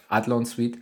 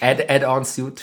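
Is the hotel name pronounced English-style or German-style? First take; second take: German; English. First: Said the German way, like 'Adlon sweet'. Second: Said the English way, like 'add-on suit'. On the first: The speaker calls it right. "statt Adlon Suite" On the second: The speaker calls it wrong. "Add-on Suit statt Adlon Suite"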